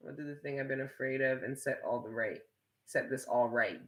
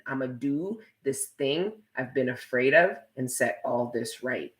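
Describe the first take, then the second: First: Reading the comment much softer, half to herself; quiet reading. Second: A hint of mocking in the reread; mock re-reading. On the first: Streamer reading Jacob's comment aloud, much softer murmur. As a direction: mutter the viewer's line back softly. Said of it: "You know what you just sounded like?". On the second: Streamer repeating Jacob's comment to tease him, lightly mocking. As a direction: say his line back the way it landed on you. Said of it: "that's what you sounded like to me". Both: Shown as a demonstration.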